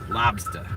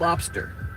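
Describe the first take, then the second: First: It is said with the final r dropped. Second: It is said with the final r pronounced. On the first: "L O B S T A" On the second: "It's not lobster"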